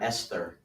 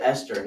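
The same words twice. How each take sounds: First: "Esther" with the th sounded; spelling pronunciation. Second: Said in the usual way. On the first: Shown as a demonstration. Questioning the usual name, "Esther" with a th. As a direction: say "Esther" as spelt, soft th in the middle. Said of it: "and not Esther". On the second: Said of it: "why do we pronounce it Esther".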